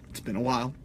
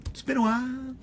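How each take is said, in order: First: Said in the usual way. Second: Playful high-pitched echo of the line; silly falsetto. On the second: Pretend. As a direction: jump way up into a squeaky falsetto. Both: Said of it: "I don't know why I do that".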